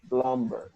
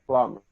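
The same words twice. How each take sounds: First: The B sound is pronounced in the middle. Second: The B sound is silent in the middle. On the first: The speaker calls it wrong. "we do not say plumber. Plumber is incorrect" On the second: The speaker calls it right. "We say plumber"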